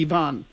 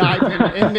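First: Ivan said ee-VAHN; Slavic pronunciation. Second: Ivan said EYE-vun; English pronunciation. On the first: Co-host explaining the Slavic name, Ivan as ee-VAHN. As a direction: say Ivan with ee and an open ah. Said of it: "in Slavic". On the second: Co-host explaining the English name, Ivan as EYE-vun. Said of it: "in English it would be Ivan". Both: Shown as a demonstration.

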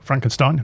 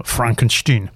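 First: "Frankenstein" rhyming with "line", rising in question; Frankenstein as FRANK-en-STINE. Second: "Frankenstein" slowly, last syllable rhyming with "seen"; Frankenstein as FRONK-en-steen. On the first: Host mimicking the mistaken name, Frankenstein queried with STINE. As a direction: ask "Frankenstein" with the usual STINE ending. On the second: Host quoting Gene Wilder's character's name, Frankenstein ending in STEEN. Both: Shown as a demonstration. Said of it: "No, no, no".

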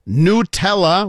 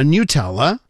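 First: "Nutella" slow, with a long oo and no y; NOO-tella pronunciation. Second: "Nutella" with a y-glide, NYOO-tella; NYOO-tella pronunciation. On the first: Host offers the other way to listeners, slow NOO-tella. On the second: Host picks up the jar in the story, NYOO-tella. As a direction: say "Nutella" starting like "new" with a y. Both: Shown as a demonstration. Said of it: "whatever you want".

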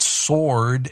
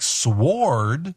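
First: Sword with silent w, stretched; right pronunciation. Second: Sword with the w sounded, slow rising; misread as spelt. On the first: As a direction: say sword slowly as SORD. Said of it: "but you look at that word". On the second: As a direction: say sword as SWORD, sw as in swore. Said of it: "and it's like". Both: Shown as a demonstration.

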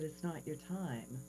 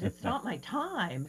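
First: Soft, hushed, gentle verdict; gentle Jesus. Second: Slow, incredulous repeat; can't believe what she heard; disbelieving echo. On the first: Jesus turning her back at the bridge, soft and gentle. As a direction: break the news kindly. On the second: Woman echoing Jesus in slow disbelief. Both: Retold or imitated.

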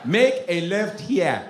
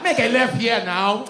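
First: Put-on slow, measured African-accented command; African GPS accent. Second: Put-on loud, high, slow African-accented order; angry African GPS accent. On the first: African GPS directing the driver, calm African accent. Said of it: "I have African G P S". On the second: African GPS losing patience with driver, loud African accent. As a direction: drive the command home, exasperated African accent. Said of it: "Nigerian on a G P S".

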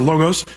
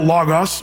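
First: "logos" pronounced LOH-gohs; long-o pronunciation. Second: "logos" pronounced LAH-gahs; short-o pronunciation. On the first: Preacher offering the alternative pronunciation, "logos" as LOH-gohs. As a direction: round long oh sounds in both halves of "logos". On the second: Preacher offering the first of two pronunciations, "logos" as LAH-gahs. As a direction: open ah sounds in both halves of "logos". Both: Shown as a demonstration. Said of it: "logos or logos".

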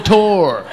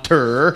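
First: "tour" drawn out as TOR, loud; insisted pronunciation. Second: "tour" drawn out as TUR, rhyming with fur; mocked wrong pronunciation. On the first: Comic teaching the audience, "tour" loudly as TORR. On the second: Comic mocking the audience's accent, "tour" as TURR. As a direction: say "tour" slowly as a long TURR. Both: Shown as a demonstration. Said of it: "There's your little lesson".

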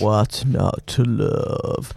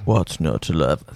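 First: Slow, drawn-out, lower mock announcer voice; put-on low announcer drawl, very slow; imitating deep-voiced announcer. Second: Much deeper mock announcer voice; put-on bass announcer impression; imitating deep-voiced announcer. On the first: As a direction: stretch it out like the radio voice guy. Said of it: "How good's that guy's voice?". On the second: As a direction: drop right down low to copy the radio guy. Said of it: "He's got a deeper voice than".

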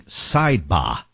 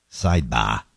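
First: Slow Boston "Sidebar" with no R; Boston accent. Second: Put-on Boston accent. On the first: Retold or imitated. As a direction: drop the R: "sidebah". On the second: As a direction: lower voice, say "sidebah" Boston style. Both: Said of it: "in his Boston accent".

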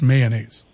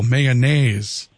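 First: Said in the usual way. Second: "mayonnaise" with the third syllable, "naise", stressed. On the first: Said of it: "around here, we're just mayonnaise". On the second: Retold or imitated. Host showing listeners the caller's accent, third syllable of "mayonnaise" stressed. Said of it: "the accent on that third syllable".

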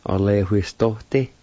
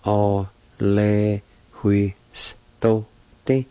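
First: Said in the usual way. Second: "O, le, hui, s, to, ti." in separated, drawn-out sounds; syllable by syllable. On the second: Shown as a demonstration. Teacher pronouncing the word period, "O, le, hui, s, to, ti." syllable by syllable. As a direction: break "O, le, hui, s, to, ti." apart for learners. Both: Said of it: "It's pronounced like this".

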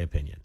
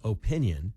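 First: "opinion" with a short, unstressed "uh" first; uh-PIN-yun, low and reduced first vowel; learned pronunciation. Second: "opinion" with a long OH first; OH-pinion, long opening vowel; mom's long O. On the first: Shown as a demonstration. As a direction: say "opinion" without the long O. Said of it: "I've learned how to say". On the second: Retold or imitated. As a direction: lean on a full "OH" in "opinion". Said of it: "My mom says".

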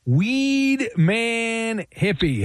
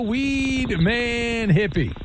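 First: Long stretched-out introduction; slow hyped announcer call; announcer intro. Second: Long stretched-out introduction, a bit higher; slow hyped announcer call; announcer intro. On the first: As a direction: draw out every word like a ring announcer. Host introduces caller, drawn out. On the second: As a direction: drag the name out for the crowd. Host repeats intro after hello. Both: Acted.

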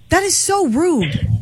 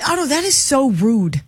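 First: "That is so rude" drawn out slow, pitched up; host scolds co-host Otto for a rude question; slow emphatic scolding. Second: Said in the usual way. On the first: Real, not acted. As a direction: lean on "so" and stretch the line.

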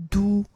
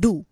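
First: "do" mispronounced with a plain, non-retroflex d; wrong pronunciation. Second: "do" with a retroflex d, tongue curled back; correct retroflex. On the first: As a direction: say "do" without curling the tongue back. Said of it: "it's not". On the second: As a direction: curl the tongue slightly back on "do". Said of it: "it's do". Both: Shown as a demonstration.

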